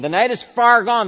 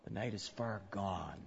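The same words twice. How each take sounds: First: High and loud, "far" hit hard; loud proclamation. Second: Hushed. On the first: Preacher proclaiming to the congregation, high and loud. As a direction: proclaim "The night is far gone" with full force. Climax of the sermon. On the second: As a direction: let "the night is far gone" sink quietly. Hushed opening line. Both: Acted.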